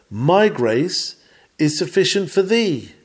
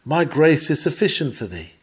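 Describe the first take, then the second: First: "My" and "thee" each given weight, with a break after "grace"; stress on MY and THEE. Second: Said in the usual way. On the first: Shown as a demonstration. Preacher recalling how the text came to him, stress on "My" and "thee". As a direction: lean on "My", pause after "grace", then lift "thee" high. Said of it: "emphasis laid upon two words". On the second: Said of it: "But it came with the emphasis".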